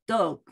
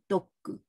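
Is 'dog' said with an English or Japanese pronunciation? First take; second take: English; Japanese. First: It is said the English way, as dog. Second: It is said the Japanese way, as doggu. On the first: "それから英語のdog" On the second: "日本語でドッグって言ってみて"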